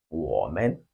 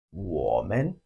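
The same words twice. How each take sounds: First: Woman said low, then rising at the end; Chinese women. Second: Woman said low and stretched, rising at the end; Chinese women. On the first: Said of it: "The Chinese word for we is". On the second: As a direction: model Woman slowly for copying. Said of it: "Repeat after me". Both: Shown as a demonstration.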